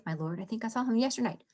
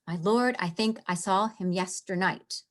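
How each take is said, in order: First: Fast, softer run through the line; quick delivery. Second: Said in the usual way. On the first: Shown as a demonstration. Teacher showing the class the line's speed, rushed. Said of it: "the speed at which they are to deliver the lines".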